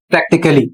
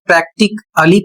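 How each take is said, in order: First: "प्रैक्टिकली" joined as prak-tik-lee, A unstressed; correct pronunciation. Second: "प्रैक्टिकली" broken as prak-tik, a-lee; wrong pronunciation. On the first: Teacher modelling the word for learners, correct pronunciation. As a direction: run "प्रैक्टिकली" together as one word. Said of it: "इसका सही उच्चारण होगा". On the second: Teacher showing learners a misreading, wrong pronunciation. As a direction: sound a separate A in "प्रैक्टिकली". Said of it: "तो आप गलत पढ़ रहे हैं". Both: Shown as a demonstration.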